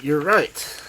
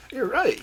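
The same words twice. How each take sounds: First: Loud insistent repeat; excited cry. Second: Very high excited cry. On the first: Old man repeating to Loveday, loud and insistent. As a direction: hammer the agreement home, louder. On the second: Old man agreeing with Loveday, high excited cry. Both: A narrator's reading. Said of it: "cried Mister Greaves".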